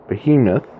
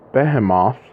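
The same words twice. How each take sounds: First: It is said with a modern English pronunciation. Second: It is said with a non-English pronunciation.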